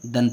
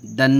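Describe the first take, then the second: First: Said in the usual way. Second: दन with the final n held long; दन as a long, humming "dannn"; wrongly lengthened. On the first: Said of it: "दन पढ़ेंगे". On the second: Shown as a demonstration. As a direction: drag out the nasal ending of दन. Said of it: "नहीं पढ़ेंगे".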